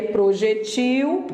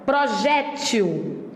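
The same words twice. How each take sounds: First: "projetil" with the stress on the final -TIL, closed e; oxítona projetil. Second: "Projétil" slow, stress on the open -JÉ-; paroxítona projétil. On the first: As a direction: stress the last syllable of "projetil". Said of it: "A diferença é de tonicidade". ("projetil" com tônica no -TIL, e fechado) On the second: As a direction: lean on the middle syllable of "Projétil", open é. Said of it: "A tonicidade está aqui". ("Projétil" devagar, tônica na penúltima, é aberto) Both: Shown as a demonstration.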